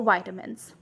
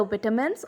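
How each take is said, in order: First: "vitamins" with a long I; American "vitamins", first vowel as in "eye"; American pronunciation. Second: "vitamins" with a short I; British "vitamins", first vowel as in "bit"; British pronunciation. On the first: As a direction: say "vitamins" as VY-tuh-mins. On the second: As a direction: say "vitamins" as VIT-uh-mins. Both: Shown as a demonstration. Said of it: "it is either vitamins or vitamins".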